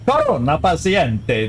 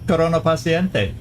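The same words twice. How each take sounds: First: It is said with a strong Italian accent. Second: It is said with little Italian accent. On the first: "That's my Italian if I was going to think I was speaking Italian" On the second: "that didn't sound as Italian to my ear"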